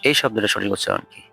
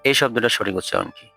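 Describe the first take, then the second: The two takes are said the same way.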